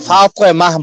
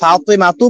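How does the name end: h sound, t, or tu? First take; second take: h sound; tu. First: The name ends with a soft 'h' sound. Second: The name ends with a full 'tu' syllable. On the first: The speaker calls it right. "ফাতেমাহ বলি" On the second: The speaker calls it wrong. "কি ফাতেমা তু বলি"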